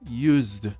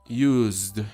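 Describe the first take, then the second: The two takes are said the same way.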